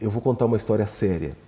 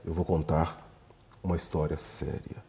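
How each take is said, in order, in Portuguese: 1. Diz-se de forma leve, com tom de brincadeira. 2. É dito com uma entoação grave e séria. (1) "Eu posso falar assim, brincando" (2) "se eu dou então a entonação correta"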